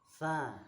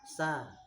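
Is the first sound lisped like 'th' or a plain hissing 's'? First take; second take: lisped th; hissing s. First: The first sound is a lisped 'th'. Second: The first sound is a plain hissing 's'. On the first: The speaker calls it right. "ujung lidah dengan ujung dua buah gigi yang atas" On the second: The speaker calls it wrong. "Tapi mboten"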